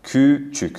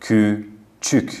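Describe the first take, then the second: First: کوچک said lightly and quickly; easy natural. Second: کوچک drawn out slowly; slow ü demo. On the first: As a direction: say کوچک simply, no effort. (کوچک ساده و راحت) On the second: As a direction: stretch کوچک for the learners. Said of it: "بخوایم به خودمون فشار بدیم". (کوچک آهسته و کشیده) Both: Shown as a demonstration.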